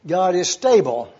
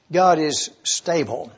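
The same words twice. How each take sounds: First: Said in the usual way. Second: Slower, each word set apart for note-taking; measured dictation pace. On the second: Shown as a demonstration. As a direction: say it slowly so they can write it down. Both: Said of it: "I would enjoy knowing that you were writing these words down".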